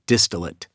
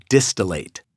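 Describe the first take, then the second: First: "distillate" with a weak final "lit" sound; "distillate" as DIS-tuh-lut; mistaken pronunciation. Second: "distillate" ending in a full "late" sound; "distillate" as DIS-tuh-layt; correct pronunciation. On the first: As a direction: say "distillate" with an unstressed, reduced last vowel. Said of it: "used that word and pronounced it". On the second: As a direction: say "distillate" with the last syllable rhyming with "gate". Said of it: "it is pronounced distillate". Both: Shown as a demonstration.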